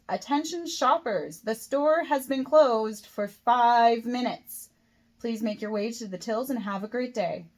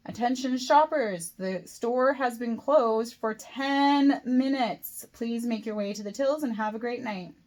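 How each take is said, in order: First: Slow, louder announcement with an edge; irritated store announcement, key words stretched out; slightly angry. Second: Louder, higher announcement, very slow and emphatic; increasingly angry. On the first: Kate warning late shoppers the store has closed, slightly angry. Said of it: "In a slightly angry tone". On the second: Supervisor announcing to lingering shoppers once more, getting angrier. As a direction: drag out each word in mounting irritation. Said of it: "Her voice is getting angrier and angrier". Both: A narrator's reading.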